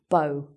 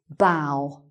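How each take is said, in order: First: The vowel sounds like 'oh'. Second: The vowel sounds like 'ow'. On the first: A knot tied with loops, as in a ribbon. "pronounced like O" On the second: Bending forward at the waist in greeting. "pronounced differently"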